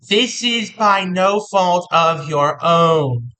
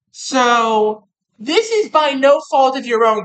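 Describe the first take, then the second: First: "This is by no fault of your own" said very slowly, each word weighted; slow emphatic repeat. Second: Said in the usual way. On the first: Shown as a demonstration. Reassuring Capricorn that it is not their fault, slow and emphatic. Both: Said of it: "Wanna emphasize that real quick".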